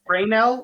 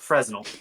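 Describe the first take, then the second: First: The S in the middle is silent. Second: The S in the middle is pronounced. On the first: The speaker calls it right. "all those" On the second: The speaker calls it wrong. "it's just not Fresnel"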